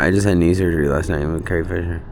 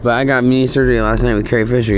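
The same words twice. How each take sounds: First: Said in the usual way. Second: Higher, louder proud announcement; excited. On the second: Shown as a demonstration. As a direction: blurt it out with pride. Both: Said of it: "Oh, I forgot".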